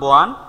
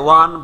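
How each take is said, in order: First: The word begins with an added b-like sound. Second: The word begins with a plain w-sound. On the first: "ব আসে" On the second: "ওয়ান না বলে বোয়ান"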